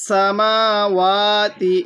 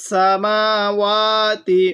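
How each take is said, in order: Both takes have the same delivery.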